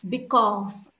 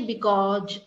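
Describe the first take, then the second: First: The final consonant is a plain s sound. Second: The final consonant is not a plain s sound. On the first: The speaker calls it right. "no, it's because" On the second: The speaker calls it wrong. "So don't say because"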